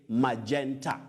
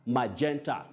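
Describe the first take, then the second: First: The g is pronounced as a j sound. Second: The g is pronounced as a j sound.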